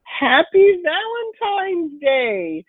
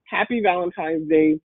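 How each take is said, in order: First: High, slow sing-song greeting; drawn-out happy greeting. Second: Said in the usual way. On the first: Shown as a demonstration. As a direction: stretch it out high and bright. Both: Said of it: "One of the main things that I wanna say".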